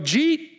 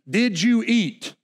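First: The words are run together into one syllable. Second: Each word is pronounced fully and separately.

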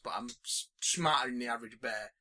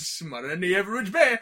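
First: It is said in a normal speaking voice. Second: It is said in a put-on cartoon character voice.

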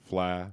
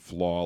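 First: The vowel is a softer, more open 'a'. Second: The vowel sounds like the one in 'law'. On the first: "a softer A, like a Fla" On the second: "Kabako wrote Flaw, like F-L-A-W"

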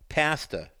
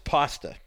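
First: It is said in an English-style accent. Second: It is said in the speaker's usual accent.

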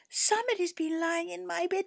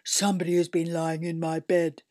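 First: A small, high little-bear voice. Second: A deep, gruff big-bear voice.

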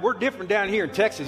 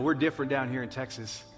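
First: It is said with a drawn-out Texan drawl. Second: It is said in a plain, neutral voice. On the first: "He kind of said like, yeah" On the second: "he didn't say it like that"

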